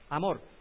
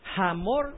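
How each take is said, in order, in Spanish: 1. La palabra empieza directamente con una vocal. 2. La palabra empieza con un sonido de h audible. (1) "Para nosotros la H es muda" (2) "¿Cómo se pronunciaría ese? ¿Hamor o Amor?"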